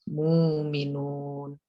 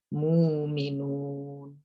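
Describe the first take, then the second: Both takes have the same delivery.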